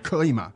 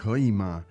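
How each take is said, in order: First: The question is said in a cold, curt way. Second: The question is said in a soft, pleading way. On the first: The speaker is unfriendly and demanding. "If you say 可以吗? Quite coldly" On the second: The speaker is gently asking a favour. "that would sound more conciliatory"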